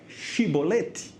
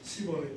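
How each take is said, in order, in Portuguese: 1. A palavra não começa com som de s. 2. A palavra começa com som de s. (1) "diga para mim a palavra chibolete" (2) "Cibolete é com saber"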